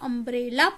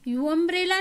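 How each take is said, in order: First: The word begins with an 'uh' sound. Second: The word begins with a 'yoo' sound. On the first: The speaker calls it right. "इसको अम्ब्रेला पढ़ते हैं" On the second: The speaker calls it wrong. "यू अम्ब्रेला नहीं कहते"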